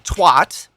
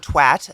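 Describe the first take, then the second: First: The word is said in a non-British way. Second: The word is said in a British way.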